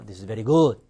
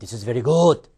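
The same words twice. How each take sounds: First: The phrase is said at a softer volume. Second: The whole phrase is said loudly. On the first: The speaker calls it right. "강세는요. 오히려 소리가 작아질 수 있습니다" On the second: The speaker calls it wrong. "큰 소리 하십니다"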